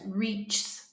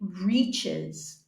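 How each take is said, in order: First: Only an S sound is added, in one syllable. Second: The ending is an extra syllable, two in all. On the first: The speaker calls it wrong. "let's just try to say it with the S" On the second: The speaker calls it right. "So we say reaches"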